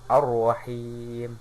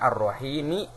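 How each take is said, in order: First: The word ends on a bare consonant. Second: The word ends with a short final vowel. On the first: The reader stops at the end of the verse. "wakof jadi ar-rahim" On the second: This is the full form without stopping. "Asalnya ar-rahimi"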